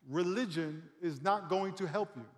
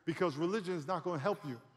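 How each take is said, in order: First: It is said very slowly. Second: It is said at normal speed.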